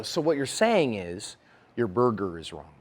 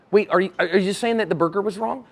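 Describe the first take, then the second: First: Slow, low and softened condescension; patronizing. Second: Earnest, puzzled check-back; honestly checking what you heard, voice rising at the end; tentative clarifying question; seeking to understand. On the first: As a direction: spell it out as if to a simpleton. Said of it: "That's very patronizing". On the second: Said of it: "I'm seeking knowledge". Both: Acted.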